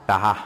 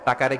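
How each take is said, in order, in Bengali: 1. মাঝের ব্যঞ্জনটি 'h' ধ্বনি। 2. মাঝের ব্যঞ্জনটি 'k' ধ্বনি।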